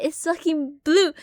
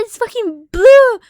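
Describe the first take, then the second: First: Said in the usual way. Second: High, loud and slow; insistent yell. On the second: Retold or imitated. Insisting to mom the bug is blue, high loud yell. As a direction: shout that it really is blue. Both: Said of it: "And I said".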